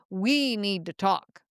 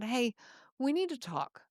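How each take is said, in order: First: It sounds cold, stern and accusing. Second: It sounds warm, gentle and caring.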